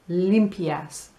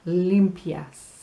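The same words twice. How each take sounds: Both takes have the same delivery.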